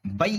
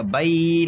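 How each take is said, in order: First: بئی jolted short and higher; abrupt, punched بئی; jerked بئی. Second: بئی dragged out long and higher; over-lengthened, drawn-out بئی; stretched بئی. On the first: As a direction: cut بئی off with a sudden jerk. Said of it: "جھٹکا ہو جائے گا". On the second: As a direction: hold the vowel of بئی too long. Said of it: "کھنچ جائے گا". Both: Shown as a demonstration.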